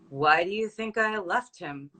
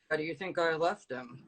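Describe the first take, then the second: First: It is said flat and stoic, without emotion. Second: It is said in a low, deep register. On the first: "So very, very stoic" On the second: "Let's go low register"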